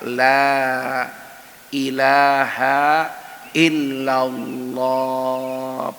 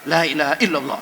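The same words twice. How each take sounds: First: The phrase is said slowly and calmly. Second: The phrase is said quickly and forcefully. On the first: It gently guides the dying person to repeat it. The speaker calls it right. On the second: It frightens the dying person instead of guiding them. The speaker calls it wrong. "Jangan. Itu bukan talqin, itu nakutin"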